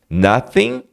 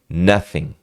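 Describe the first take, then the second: First: The first vowel is a short 'uh' sound. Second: The first vowel is a short 'uh' sound.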